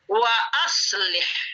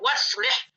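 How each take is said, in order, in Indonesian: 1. Hamzah memisahkan 'wa' dari 'aslih'. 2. 'Wa' langsung bertemu 'slih' tanpa hamzah. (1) "asalnya dari aslaha, dari transitif" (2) "Tidak boleh dibaca waslih"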